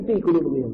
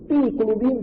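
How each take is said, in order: First: Said in the usual way. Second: Fi jumps high and rising, like a friend struggling; straining pronunciation. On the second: Retold or imitated. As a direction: force out Fi qulubihim with a high strained Fi. (Fi qulubihim diucapkan tinggi dan tertahan, seperti susah membaca) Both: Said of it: "susah sekali baca fi qulubihim".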